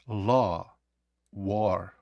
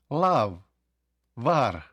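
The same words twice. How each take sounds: First: "Law, war" with a long O, no final V in "Law"; low, deliberate O vowel in "Law, war"; правильна вимова. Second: "Love, war" misread as "lav, var" with an A; imitated mispronunciation. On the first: Shown as a demonstration. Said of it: "то тоді вона вимовляється як". («Law, war» з довгим «о») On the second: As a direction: mimic a learner's wrong A in "Love, war". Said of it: "як я чув, люди вимовляють". («Love, war» помилково, як «лав, вар»)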